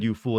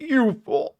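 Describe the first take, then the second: First: Said in the usual way. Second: High shouted "You fool!"; catchphrase shout. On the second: Shown as a demonstration. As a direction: fling it up high like a villain. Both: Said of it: "I had many ways of saying it".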